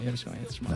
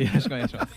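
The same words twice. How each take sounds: First: It is said with low energy. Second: It is said with high energy.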